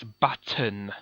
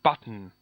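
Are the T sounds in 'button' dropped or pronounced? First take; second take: pronounced; dropped. First: The T sound in the middle is clearly pronounced. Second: The T sound in the middle is dropped. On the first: The speaker calls it right. "It has T's, it's button" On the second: The speaker calls it wrong. "It isn't button"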